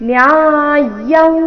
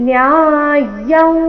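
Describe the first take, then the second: The two takes are said the same way.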